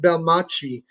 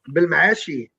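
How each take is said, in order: First: It is said smoothly, rhyming with Versace. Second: It is said with a sound from the throat. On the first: "I pronounce it Belmachi because it rhymes with Versace" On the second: "there's a throat th- thing going on"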